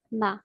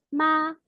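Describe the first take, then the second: First: "ma" said short, light and unstressed; "ma" as a light Mandarin neutral tone. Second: "ma" held high and level; "ma" in Mandarin first tone, long and flat. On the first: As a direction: drop "ma" briefly without any held tone. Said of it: "est un ton neutre". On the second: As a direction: sustain "ma" on one high, steady pitch. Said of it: "possède le premier ton". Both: Shown as a demonstration.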